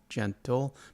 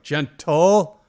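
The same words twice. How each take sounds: First: The word is said calmly at normal volume. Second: The word is yelled loudly and sharply. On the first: It is an everyday gentle reminder. "most of the time I'll say it like" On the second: It is an urgent command to stop rough play. "sometimes I'll yell it like"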